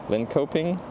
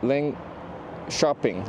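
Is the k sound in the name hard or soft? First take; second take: hard; soft. First: The k is said as a hard k sound. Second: The k is said as a soft sh-like sound. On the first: The speaker calls it wrong. "You don't say it like Linköping" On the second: The speaker calls it right. "Soft K"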